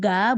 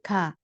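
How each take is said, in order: First: It starts with a clear g sound. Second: It starts with a sound between k and g. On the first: The speaker calls it wrong. "bukan ga" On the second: The speaker calls it right. "tapi K, antara K sama K"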